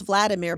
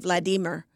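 First: The name is said with an English pronunciation. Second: The name is said with a Russian pronunciation. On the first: "whose name was Vladimir" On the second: "but they pronounce it Vladimir"

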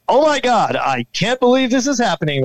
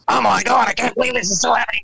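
First: It is said in a newscaster's voice. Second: It is said in a Beavis and Butthead voice.

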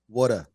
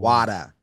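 First: The word is said in a Philadelphia accent. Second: The word is said in a Boston accent.

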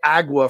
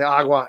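First: The word has an anglicized English pronunciation. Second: The word has a native Spanish pronunciation. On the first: The speaker calls it wrong. "I don't say agua for water" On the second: The speaker calls it right. "I say agua. ... I've got perfect enunciation"

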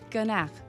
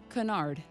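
First: It is said with a French pronunciation. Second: It is said with an American pronunciation. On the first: "Say it in French again" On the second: "Say the American version again"

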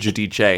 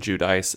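First: The name is said with a more Italian sound. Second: The name is said in a plain Americanized way. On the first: She wanted to seem more Italian after fame. "I need to sound more Italian" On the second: This is how she first said her own name. "she always called herself"

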